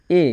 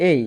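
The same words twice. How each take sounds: First: Said in the usual way. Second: "এই" with a clear i off-glide, falling; English letter A. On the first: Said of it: "এ বলে উচ্চারণ করি". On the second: Shown as a demonstration. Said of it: "এর উচ্চারণ হবে এই".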